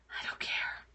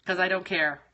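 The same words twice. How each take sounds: First: Unvoiced, breathy whisper of spite. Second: Said in the usual way. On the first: Real, not acted. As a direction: breathe it out, voiceless. Repeats line, second one whispered.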